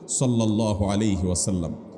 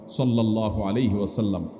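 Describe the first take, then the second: Both takes have the same delivery.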